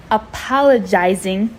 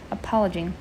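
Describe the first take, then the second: First: "Apologizing" said louder and settled; firm reread. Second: "Apologizing?" read as a puzzled question; questioning rise. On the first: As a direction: land "Apologizing" firmly as the right reading. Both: Shown as a demonstration.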